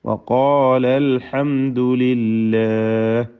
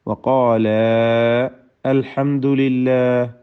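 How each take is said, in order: First: The vowel before 'al' is cut short. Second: The vowel before 'al' is held long. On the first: "എന്ന് വായിക്കുന്നു" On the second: "എന്നത്"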